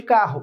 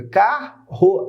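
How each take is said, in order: First: Said in the usual way. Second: "Carro" split as car, ro with a gap; separado em sílabas. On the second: Shown as a demonstration. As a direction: break "Carro" into two separate syllables, car and ro. ("Carro" pausado: car, ro) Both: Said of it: "separa as sílabas de carro".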